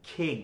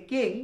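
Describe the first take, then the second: First: খিং with a puff on kh; breathy kh starting খিং; aspirated king. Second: কিং with a plain k; the rejected কিং, no air; dry k on কিং; unaspirated king. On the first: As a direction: land on the corrected খিং. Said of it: "এটা হবে". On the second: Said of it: "it's not এখন থেকে কিং". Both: Shown as a demonstration.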